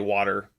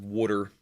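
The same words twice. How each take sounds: First: It is said with a general American accent. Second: It is said with a Philadelphia accent.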